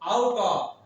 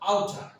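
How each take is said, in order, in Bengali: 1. শব্দ দুটো পূর্ণভাবে ও আলাদা আলাদা করে বলা হয়। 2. শব্দ দুটো মিশে একটি ছোট শব্দ হয়ে যায়।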